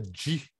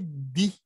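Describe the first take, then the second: First: It starts with a j-like sound. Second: It starts with a plain d sound. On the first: The speaker calls it wrong. "nunca di. Porque di é um outro som" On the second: The speaker calls it right. "O D I é sempre di"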